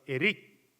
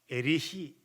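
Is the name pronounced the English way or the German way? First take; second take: English; German. First: It is said with an English ending sound. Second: It is said with a German ending sound. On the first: "영어식 발음으로" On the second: "독일 태생이기 때문에"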